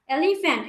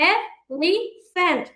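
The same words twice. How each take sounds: First: Said in the usual way. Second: "elephant" slowly in three beats, এ, লি, ফ্যান্ট; slow "elephant" with pauses between syllables. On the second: Shown as a demonstration. ("Elephant" ধীরে তিন ভাগে ভেঙে উচ্চারণ) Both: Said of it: "তিন ভাগে উচ্চারণ করছি".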